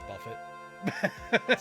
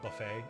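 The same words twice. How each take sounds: First: Every syllable is sounded out as spelled. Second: The word is said in its usual way. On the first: The speaker calls it wrong. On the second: The speaker calls it right.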